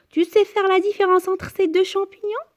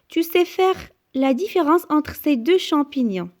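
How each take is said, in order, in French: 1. La voix monte à la fin. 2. La voix descend à la fin. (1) "on peut aussi poser la question" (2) "c'est une phrase déclarative se termine par un point"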